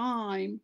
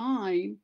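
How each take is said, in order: The two takes are said the same way.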